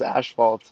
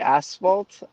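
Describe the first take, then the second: First: The first syllable does not sound like 'ass'. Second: The first syllable sounds like 'ass'. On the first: This is how people locally say it. "everyone here says asphalt" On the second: This is how the other person says it. "when I hear you say asphalt ... You're saying like ass"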